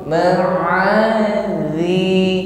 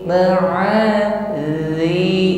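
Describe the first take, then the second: The two takes are said the same way.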